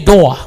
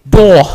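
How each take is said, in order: First: It is said in a New York accent. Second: It is said in a British accent. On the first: "like a, a person from New York" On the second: "If you want to pronounce it like the British"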